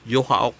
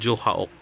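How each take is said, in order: First: The name starts with a Y sound. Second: The name starts with a J sound. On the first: This is the proper way to say it. "yung proper nila is yun" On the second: Some other people say it this way. "Yung iba"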